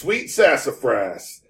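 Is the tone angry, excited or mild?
mild. It is said with only mild annoyance.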